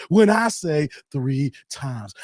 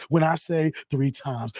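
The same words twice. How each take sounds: First: "When I say three times" drawn out slowly, every word pressed; slow, pointed repeat of "When I say three times"; slow emphatic repeat. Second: Said in the usual way. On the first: Acted. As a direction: spell out "three times" slow and firm, in a lightly voiced Doctor Umar. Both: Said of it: "Whenever you hear me doing that".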